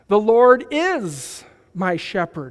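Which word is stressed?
is. The word is carries the main stress. He certainly is, not just might be. "Not he might be, he will be"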